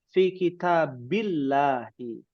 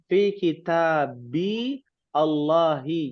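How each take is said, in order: First: The words are joined into one connected stretch. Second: The words are said separately, not joined.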